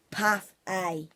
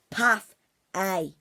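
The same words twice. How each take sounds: The two takes are said the same way.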